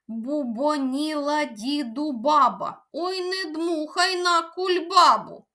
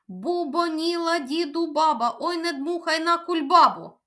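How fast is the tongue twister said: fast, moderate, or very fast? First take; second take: fast; very fast. First: It is said at a fast pace. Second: It is said at a very fast pace. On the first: "давайте спробуємо вимовити її ще швидше" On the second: "А давайте іще швидше спробуємо"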